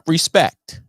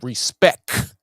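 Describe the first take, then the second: First: The word ends with a clear T sound. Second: The word ends with a K sound. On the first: The speaker calls it wrong. "not respect, not R E S P E C T" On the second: The speaker calls it right. "but R E S P E C K, some respect"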